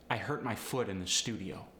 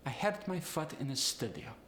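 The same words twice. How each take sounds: First: Said in the usual way. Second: Higher Polish accent, uh for oo. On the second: Shown as a demonstration. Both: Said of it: "The oo sound goes to the uh sound".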